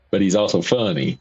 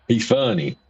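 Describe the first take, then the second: First: But he's ALSO funny, also stressed. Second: Said in the usual way. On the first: Shown as a demonstration. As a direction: hit the word also to set it apart from the plain funny.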